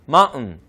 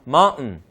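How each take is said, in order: Both takes have the same delivery.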